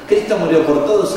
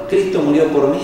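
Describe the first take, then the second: First: "todos" lifted high and loud, rising; stress on todos. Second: "mí" pressed home, loud and rising; stress on mí. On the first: Preacher contrasting religion with salvation, stressing "todos". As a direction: lean into "todos" with a rising push. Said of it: "es religión". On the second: Preacher contrasting salvation with religion, stressing "mí". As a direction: land hard on "mí". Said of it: "es salvación". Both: Shown as a demonstration.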